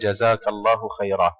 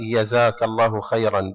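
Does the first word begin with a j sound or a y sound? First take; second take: j sound; y sound. First: The first word begins with a j sound. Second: The first word begins with a y sound. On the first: This is the standard form. "بدلا من" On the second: This is the local dialect form. "يقولون بلغة أهل البلد هنا"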